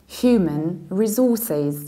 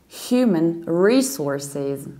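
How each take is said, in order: No difference in how they are said.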